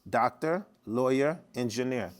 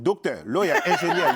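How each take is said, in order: First: It is said in the speaker's plain accent. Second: It is said in his Haitian father's accent.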